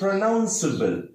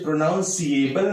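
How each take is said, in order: First: The vowel before -able is very short. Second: The vowel before -able is drawn out and long. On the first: The speaker calls it right. "This is very short sound" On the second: The speaker calls it wrong. "हम इसे प्रोनाउंसिएबल नहीं कहेंगे"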